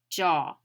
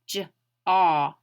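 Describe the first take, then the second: First: The word is said smoothly at normal speed. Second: The word is drawn out slowly, sound by sound. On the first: "then I say it again" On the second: "Notice how I say it slowly"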